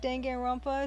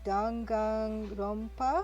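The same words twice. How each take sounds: First: The word is pronounced in an English style. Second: The word is pronounced in a Japanese style. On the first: This is how many people commonly say it. "I've just heard other people on you on their YouTube channels pronouncing it" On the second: This is how the original word is said. "I guess it's supposed to be a Japanese word, in which case it would be"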